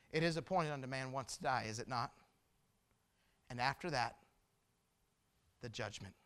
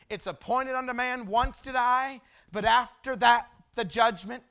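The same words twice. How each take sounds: First: Low, soft scripture with weighty pauses; hushed solemn warning. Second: Ringing scripture proclamation; emphatic preaching. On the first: Preacher reminds congregation they will die, hushed and grave. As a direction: drop down gravely, pausing before the judgment. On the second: Preacher proves his point from the Bible, emphatic proclamation. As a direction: punch it out, louder on "after that". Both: Real, not acted.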